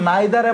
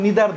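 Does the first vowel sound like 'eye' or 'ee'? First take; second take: eye; ee. First: The first vowel sounds like 'eye'. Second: The first vowel sounds like 'ee'. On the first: This is the form used in the American English followed locally. "এটার উচ্চারণ নাইদার এবং নিদার দুইটি হয়" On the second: This is the form not used locally. "নিদার বলবো না"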